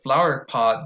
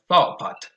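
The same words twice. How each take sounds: First: The r sound in flower is pronounced. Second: The r sound in flower is dropped.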